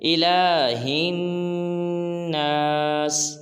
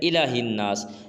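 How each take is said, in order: First: The 'la' vowel is drawn out long. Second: The 'la' vowel is said short. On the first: The speaker calls it right. "लाम को लंबा करेंगे" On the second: The speaker calls it wrong. "ये बिल्कुल गलत है"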